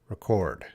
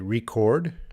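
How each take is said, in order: First: The stress is on the second syllable. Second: The stress is on the first syllable. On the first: "sometimes we emphasize uh, the second syllable" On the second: "sometimes we stress the first syllable"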